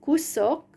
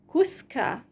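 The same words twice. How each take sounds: First: "Kusok" with OK stressed, kuSOK; stressed suffix. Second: "kuska" with the final A stressed, kusKA. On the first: Contrasting the two forms for a learner, suffix stress on "Kusok". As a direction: hit the closing SOK of "Kusok". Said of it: "this ok suffix is under stress". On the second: Contrasting the changed form for a learner, stressed A in "kuska". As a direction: move the weight to KA in "kuska". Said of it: "the stress changes to the a syllable". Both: Shown as a demonstration.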